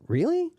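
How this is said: It sounds doubtful and surprised. The listener disagrees or finds it strange. "don't really agree with or you think is strange or surprising"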